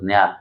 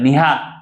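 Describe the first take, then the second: First: The word is squeezed into a single syllable. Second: The word is said fully as two syllables. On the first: "आपण न्याल म्हणतो" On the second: "याला निहाल म्हणतात"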